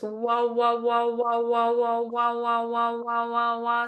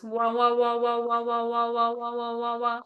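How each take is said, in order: First: Wah pulsed in triplets. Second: Fast sixteenth note wah pulses. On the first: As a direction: bounce wah in quick triplets. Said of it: "doing, like, triplets". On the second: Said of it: "See if you can do sixteenth notes". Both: Shown as a demonstration.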